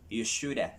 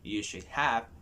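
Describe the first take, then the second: First: The words are run together into a contraction. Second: Each word is said fully and separately. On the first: "make a contraction" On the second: "Instead of saying you should have"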